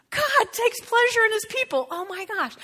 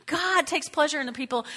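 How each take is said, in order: First: Excited. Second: Said in the usual way. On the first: Acted. Excited restatement of scripture.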